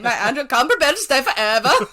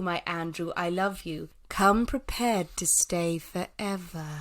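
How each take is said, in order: First: It is said in a put-on Norwegian accent. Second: It is said in the speaker's own accent.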